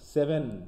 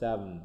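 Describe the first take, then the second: First: It ends with a clear n sound. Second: It ends with a syllabic m sound. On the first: "সেভেন হয়ে যাচ্ছে" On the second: "হয়ে যাচ্ছে স্যাবম"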